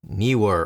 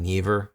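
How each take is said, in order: First: The middle consonant is a W sound. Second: The middle consonant is a V sound.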